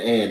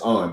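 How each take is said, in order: First: The name is said like 'Ann'. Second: The name is said like 'Arn'. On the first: The speaker calls it wrong. "I've been saying Ann" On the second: The speaker calls it right. "it's Arn"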